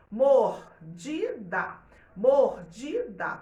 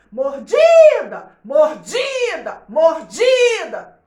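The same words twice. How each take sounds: First: "mordida" drawn out slowly, each syllable even; slow syllable reading. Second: "Mordida!" shouted slow and high, DI stressed; calling out the word. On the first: Teacher to class, reading "mordida" slowly. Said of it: "a gente vai ver assim". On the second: Teacher to class, shouting "Mordida!" slowly. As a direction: call "Mordida!" like a name across a playground. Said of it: "você tem que chamar a palavra". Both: Shown as a demonstration.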